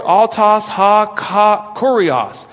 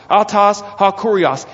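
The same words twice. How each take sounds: First: "autos ha ka kurios" sounded out slowly, syllable by syllable; careful, deliberate Greek reading. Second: "autos ha kurios" said smoothly at normal speed; easy, flowing Greek phrase; fluent Greek. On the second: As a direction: run "autos ha kurios" together naturally. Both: Shown as a demonstration. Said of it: "the pronoun and the designator autos".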